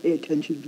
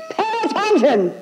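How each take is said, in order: First: Softer, low deep pay attention. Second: High shrieking yell of Pay attention; hammed-up screeching command; fishwife scream. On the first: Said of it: "from down here, low, deep". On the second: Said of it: "Screaming like a fishwife". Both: Shown as a demonstration.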